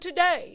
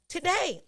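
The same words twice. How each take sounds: First: It is said in a put-on preacher voice. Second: It is said in an ordinary speaking voice.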